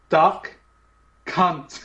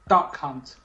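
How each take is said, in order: First: It is said slowly. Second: It is said at normal speed.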